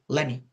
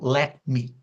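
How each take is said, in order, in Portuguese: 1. As palavras se juntam numa forma reduzida. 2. As duas palavras são ditas completas e separadamente. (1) "Falei let me" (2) "Eu não falei o let me"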